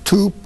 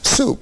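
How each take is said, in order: First: The first consonant is a t sound. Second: The first consonant is an s sound. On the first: A later stage with an easier sound. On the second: The final adult form.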